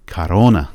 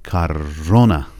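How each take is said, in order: First: کارونا at normal pace, stress on -رو- without the heavy ر; a plainer کارونا with only a light hit on -رو-; lighter stress. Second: کارونا, slow, with a thick rolled ر and a hard hit on -رو-; overdone stress. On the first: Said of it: "انقدر غلیظ نیاز نیستش". (کارونا معمولی با فشار ملایم روی رو) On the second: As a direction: exaggerate the ر in کارونا to push the stress. (کارونا با ر غلیظ و فشار زیاد روی رو) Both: Shown as a demonstration.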